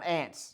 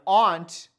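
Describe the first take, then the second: First: It sounds like the insect word ant. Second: It uses a vowel unlike the insect word. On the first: It names a bug. The speaker calls it wrong. "It's not an ant. Because an ant is like a, a bug" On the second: It names a parent's relative. The speaker calls it right. "An aunt is the proper pronunciation of the relative of your parent"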